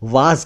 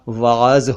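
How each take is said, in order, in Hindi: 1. यह शब्द रोज़मर्रा के आम तरीके से बोला गया है। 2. यह शब्द अपने औपचारिक, मूल रूप में बोला गया है। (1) "लेकिन आमतौर पर वाज कहा जाता है" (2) "उच्चारण इसका वाज होता है"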